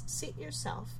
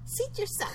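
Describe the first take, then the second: First: It is said in a normal voice. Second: It is said in a squeaky voice.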